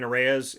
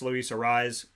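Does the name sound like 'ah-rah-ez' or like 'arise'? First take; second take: ah-rah-ez; arise. First: The name is said in three Spanish-style syllables. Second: The name is said in two syllables, like 'arise'. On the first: The speaker calls it wrong. "I've been saying Arraez" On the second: The speaker calls it right. "it's Luis Arraez"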